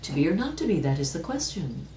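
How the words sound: It is said playfully, with lively radiance.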